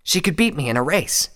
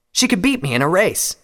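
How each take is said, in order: First: High, slightly more restrained admission; serious Scarlet. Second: High, loud admission; serious Scarlet. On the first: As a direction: repeat it earnestly, pitch raised. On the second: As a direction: admit it earnestly in a raised pitch. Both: A narrator's reading. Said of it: "his face now serious".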